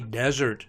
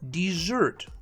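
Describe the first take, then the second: First: The stress is on the first syllable. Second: The stress is on the second syllable. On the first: It is used as a noun. "Two-syllable nouns are stressed on the first syllable" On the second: It is used as a verb. "Two-syllable verbs are stressed on the second syllable"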